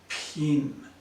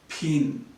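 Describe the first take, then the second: First: The word is said very slowly. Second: The word is said somewhat slowly. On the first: "Now I'm going to say it even more slowly" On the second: "I'm going to say them a bit more slowly this time"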